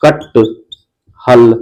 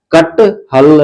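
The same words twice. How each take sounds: First: कटहल slowly split into कट and हल, lower; broken pronunciation. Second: Said in the usual way. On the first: Shown as a demonstration. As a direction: drag कटहल out, breaking after the half ट. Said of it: "ट है ना पूरा उच्चारण नहीं हो रहा है". (कटहल को धीरे से कट-हल तोड़कर बोलें) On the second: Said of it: "जैसे उच्चारण करते हैं".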